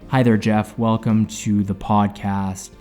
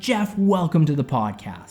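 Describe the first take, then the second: First: It is said flatly with little energy. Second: It is said brightly with lots of energy.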